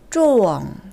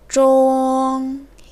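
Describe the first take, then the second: First: The syllable falls sharply from high. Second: The syllable stays high and level. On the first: It is the verb meaning to be hit. "동사로 쓰일 때는 일성보다 높은 곳에서 포물선을 그리듯 떨어지는 사아성입니다" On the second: It is the noun meaning middle. "명사로 쓰일 때는 쫑 일성"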